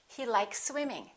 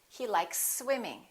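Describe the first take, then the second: First: The two s sounds blend into one. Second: The same.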